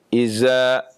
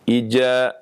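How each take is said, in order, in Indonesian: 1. Konsonan tengahnya bunyi z. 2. Konsonan tengahnya bunyi j. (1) "berubah menjadi zai" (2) "berubah menjadi jim"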